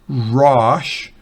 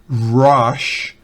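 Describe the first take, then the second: The two takes are said the same way.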